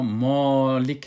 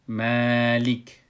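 First: The word is pronounced with a heavy, full sound. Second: The word is pronounced with a light, soft sound. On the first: The speaker calls it wrong. "ما مالک نمیگیم" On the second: The speaker calls it right. "اینی نرم خوانده شد"

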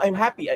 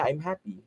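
First: The voice sounds cheerful and sincerely happy. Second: The voice sounds flat and unconvinced, hinting at trouble. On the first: The speaker really is happy. "And I say it that way, more, I believe that I'm really happy" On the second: Something is bothering the speaker underneath. "my student is going through something, or there's something underneath there"

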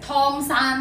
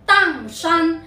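First: The first syllable begins with an aspirated t. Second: The first syllable begins with an unaspirated d. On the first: The speaker calls it wrong. "有冇人将呢个地方曾经读成汤山嘅咧？" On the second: The speaker calls it right. "普通话唔系读汤，系读当山。"

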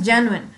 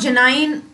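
First: The ending sounds like 'in'. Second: The ending sounds like 'wine'. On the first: The speaker calls it right. "It is" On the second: The speaker calls it wrong. "It is not"

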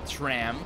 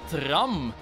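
First: The vowel sounds like the English word tram. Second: The vowel is a plain Dutch a, as spelled. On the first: This is how it is said in English. "In het Engels zeggen ze wel tram" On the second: This is how it is said in Belgium. "dat is letterlijk de spelling van het woord"

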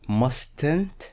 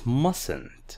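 First: The t after the s is pronounced. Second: The t after the s is silent. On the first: The speaker calls it wrong. "This is not mustn't" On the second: The speaker calls it right. "No, it's mustn't"

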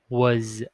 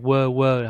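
First: The word ends with a clear z sound. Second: The word ends without a final z sound. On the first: The speaker calls it right. "Là như thế này. Âm Z nhé" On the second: The speaker calls it wrong. "các bạn hay đọc hay quơ, không phải nè"

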